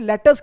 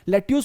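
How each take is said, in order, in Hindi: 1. दूसरा अक्षर 'us' जैसा सुनाई देता है। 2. दूसरा अक्षर 'yoos' जैसा सुनाई देता है। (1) "इसे लेटस कह देते हैं" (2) "लेट्यूस मत कहिए"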